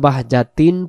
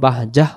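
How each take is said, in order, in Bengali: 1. শব্দটি একটা -tin ধ্বনি দিয়ে শেষ হয়। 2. শব্দটি একটা শ্বাসযুক্ত h ধ্বনি দিয়ে শেষ হয়। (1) "দম ধরে গেলে বাহ যা তিন পড়তে পারবো" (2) "দমটা ছেড়ে দিলে বাহ জাহ হবে"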